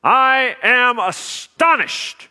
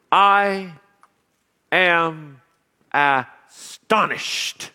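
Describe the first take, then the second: First: Said in the usual way. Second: Astonished drawn out very slowly, each word set apart; dramatic slow opener. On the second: Shown as a demonstration. Preacher stuns the congregation with a drawn-out astonished. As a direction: let I, am and astonished land one by one. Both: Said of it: "Well, that's a grabber".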